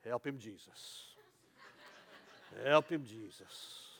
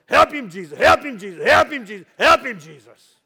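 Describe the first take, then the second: First: Slow, low church lady plea; a lightly voiced old church lady, slow and soft; church lady murmur. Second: Loud, higher church lady cry; screaming plea. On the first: Shown as a demonstration. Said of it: "And they go like this". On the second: Retold or imitated. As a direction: scream it out to heaven, over and over. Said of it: "And they were screaming".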